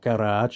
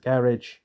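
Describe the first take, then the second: First: It is said in a posh or American way. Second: It is said in an ordinary, everyday way.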